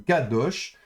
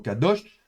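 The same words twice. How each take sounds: First: The stress is on the first syllable. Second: The stress is on the last syllable. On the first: The speaker calls it wrong. "plutôt que kadosh" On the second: The speaker calls it right. "on prononce la dernière syllabe de manière un peu plus tonique"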